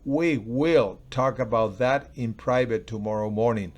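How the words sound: The word will carries the strongest stress. It matters that the talk will really happen. "O lo puedo decir, we will"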